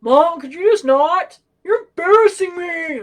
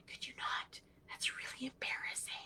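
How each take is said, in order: First: Loud, high, drawn-out mock complaint; embarrassed son. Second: Hushed, voiceless mock plea; mortified whisper. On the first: Eldest son yelling to mom from the deli, imitated embarrassed holler. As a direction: holler it across a store, imitating a mortified kid. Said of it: "there's my eldest son". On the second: Girls behind their mom begging her to stop, imitated mortified whisper. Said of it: "they look mortified".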